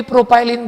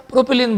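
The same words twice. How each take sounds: First: प्रोपाइलिन with a "pie" diphthong; alternative pronunciation. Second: प्रोपिलीन as pro-pi-leen; short-i pronunciation. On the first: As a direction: say pro-pie-lin for प्रोपाइलिन. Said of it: "कुछ शिक्षक लोग भी प्रोपाइलिन बोलते हैं". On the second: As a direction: give प्रोपिलीन a "pi" as in pin. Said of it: "प्रोपिलीन बोलो". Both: Shown as a demonstration.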